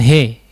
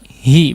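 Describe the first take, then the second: First: The vowel is tilted toward 'e'. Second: The vowel is a full, clear 'i'. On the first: The speaker calls it wrong. "bukan he" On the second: The speaker calls it right. "hi hi"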